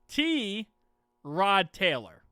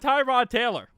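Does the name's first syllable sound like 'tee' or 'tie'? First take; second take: tee; tie. First: The first syllable sounds like 'tee'. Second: The first syllable sounds like 'tie'. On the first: The speaker calls it right. "My name is T. Rod Taylor" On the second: The speaker calls it wrong. "it's not Tyrod Taylor"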